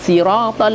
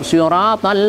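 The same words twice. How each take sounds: First: The first s is plain and light. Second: The first s is emphatic and heavy.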